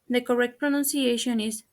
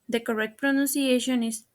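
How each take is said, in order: The two takes are said the same way.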